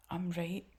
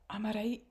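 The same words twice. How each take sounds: First: Said in the usual way. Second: Breathy whispered echo of I'm a right; mock whisper. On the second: Commentator mocking the pastor's claim with a whisper.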